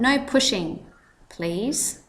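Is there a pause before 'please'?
yes. There is a pause before please.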